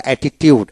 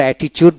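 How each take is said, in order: First: "অ্যাটিটিউড" with a clear t-yood, atti-tiud; dictionary pronunciation. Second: "অ্যাটিটিউড" with a ch sound, atti-chude; common pronunciation. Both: Shown as a demonstration. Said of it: "উচ্চারণটা অ্যাটিটিউড".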